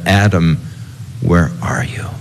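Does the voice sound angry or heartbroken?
heartbroken. It sounds sobbing and heartbroken, like a grieving father.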